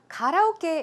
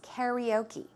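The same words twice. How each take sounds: First: The word is pronounced with a Korean accent. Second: The word is pronounced with an American English accent. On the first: "is how we pronounce it in Korean" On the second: "the American English way to pronounce it"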